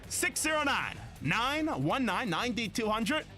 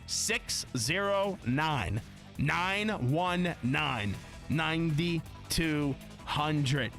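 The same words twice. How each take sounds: First: The number is said fast. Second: The number is said slowly.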